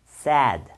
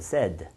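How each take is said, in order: First: The word is drawn out and exaggerated. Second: The word is said quickly and naturally. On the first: "이거 제가 조금 과장을 집어넣어서" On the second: "제가 조금 빨리 해볼게요"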